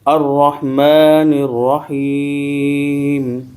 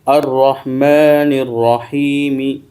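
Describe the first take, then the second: First: The last word stops on the 'm' sound. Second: The last word ends with a short 'ee' vowel. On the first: The reader stops at the end of the verse. "मीम के ज़ेर को हम जज़म से बदल देंगे।" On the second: The reading continues without stopping. "मीम ज़ेर मी, रहीमी।"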